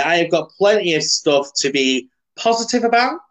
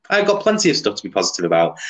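First: Higher, rising questioning tune up to "about"; doubtful rise on "positive about"; self-questioning. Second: Lower, quick statement down through "positive about"; matter-of-fact, faster, no rise on "about"; settled answer. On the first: Pretend. Asks himself, then answers yes. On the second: Real, not acted. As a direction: answer briskly, keeping "positive about" low. Answers his own question.

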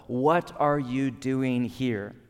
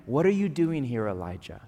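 First: Slow, drawn-out, probing the listener; slow searching question. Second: Said in the usual way. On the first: Acted. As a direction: ask it slowly, right at their soul. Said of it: "Put another way".

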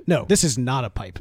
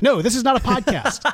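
First: Said in the usual way. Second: No, this is not a podcast, said brightly and higher; correcting himself with a laugh; corrected line. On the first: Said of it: "Why do I always get that wrong?". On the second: Shown as a demonstration. Fixing his flubbed line to cohost, laughing. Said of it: "You eventually got it".

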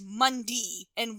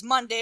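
First: Midwestern MONDAY, the ending said "dee"; Midwestern accent. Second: Said in the usual way. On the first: Retold or imitated. Imitating Fred Ward saying the days of the week, Midwestern "Mundee" for Monday. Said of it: "very Midwestern accent". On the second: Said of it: "Instead of saying".

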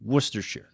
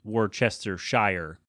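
First: Worcestershire said as wuss-ter-sher; correct way. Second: Worcestershire said slowly in full, wor-ces-ter-shire; wrong way people say it. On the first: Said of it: "When you have it at the end of a word". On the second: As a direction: spell out every letter of Worcestershire, slowly. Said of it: "a lot of people will say". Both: Shown as a demonstration.

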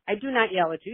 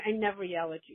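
First: I do NOT yell at you, with not leaned on and rising; firm denial, "not" stressed with a rise. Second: Said in the usual way. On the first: Real, not acted. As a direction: insist by hitting not. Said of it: "You yell at me". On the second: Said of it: "You said that".

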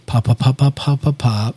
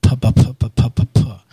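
First: Soft pa pops repeated; soft lip popping. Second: Lower, softened pa sounds; gentle filtered pa pops; soft lip popping. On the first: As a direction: tap out gentle pa sounds. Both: Shown as a demonstration.

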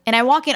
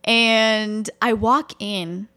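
First: Said in the usual way. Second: Drawn out like a movie scene; slow dramatic. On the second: Shown as a demonstration. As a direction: stretch it out, cinematic entrance. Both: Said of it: "just try to picture it as a movie".

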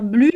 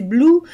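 First: "blue" with a French u sound; mispronounced blue. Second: "blue" with an English oo sound; correct English blue. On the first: Showing listeners the mistake to avoid, mispronounced "blue". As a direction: say "blue" with tight French u, like "blu". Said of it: "de ne pas dire blue". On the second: Showing listeners the pronunciation that matters, English "blue". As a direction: say "blue" as "bloo". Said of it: "si c'est blue". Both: Shown as a demonstration.

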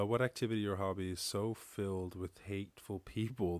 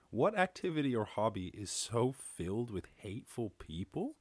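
First: Said in the usual way. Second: Taken-aback echo, rising sharply on "people"; incredulous question with "people" swung upward; questioning repeat. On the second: Real, not acted.

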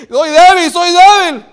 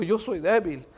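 First: High, full-voiced acted cry; shouted confession. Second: Said in the usual way. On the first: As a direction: shout the admission out loud. Acts Paul's confession at full force. (confesión a gritos, con voz aguda)

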